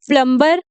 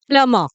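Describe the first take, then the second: First: A b sound is heard after the m. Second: No b sound is heard after the m. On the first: The speaker calls it wrong. "इसको प्लम्बर नहीं बोलते हैं" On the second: The speaker calls it right. "जो बी है उसका sound तो नहीं आएगा"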